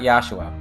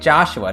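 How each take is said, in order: First: The name has a German pronunciation. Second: The name has an English pronunciation. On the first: This is the intended original pronunciation. "it's supposed to be Joshua because it's German" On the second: This is how English-speaking readers say it. "English speakers reading this, we say we say Joshua"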